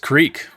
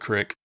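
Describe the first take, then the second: First: The word is said like creek. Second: The word is said like crick. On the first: The speaker's own community says it this way. "that's creek. We say creek" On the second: Some other regions say it this way. "we don't say the crick"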